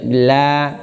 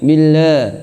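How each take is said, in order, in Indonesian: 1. Vokal a diucapkan dengan mulut terbuka sangat lebar. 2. Vokal a diucapkan dengan mulut hanya sedikit terbuka. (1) "itu terlalu lebar" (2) "jangan billah, billah tanpa dibuka"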